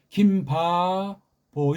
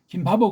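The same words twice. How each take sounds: First: The name is drawn out slowly with room. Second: The name is said quickly without lingering. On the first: The name keeps its native Korean root. The speaker calls it right. "긴 듯하게 여유를 주고 끌, 저, 끌고 나갑니다" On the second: The name sounds rootless and foreign. The speaker calls it wrong. "이건 완전히 우리 소리가 아니고 족보 없는 소리가 돼요"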